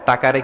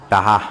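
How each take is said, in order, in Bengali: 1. মাঝের ব্যঞ্জনটি একটি স্পষ্ট k ধ্বনি। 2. মাঝের ব্যঞ্জনটি নরম হয়ে h ধ্বনিতে পরিণত হয়।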